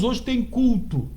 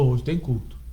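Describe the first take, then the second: First: It sounds glad and enthusiastic. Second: It sounds reluctant and annoyed. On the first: Going to church is a joy. "a gente não fala assim, ó, glória a Deus" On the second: Going to church is a burden. "A gente fala, pô"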